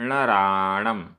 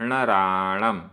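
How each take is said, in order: No difference in how they are said.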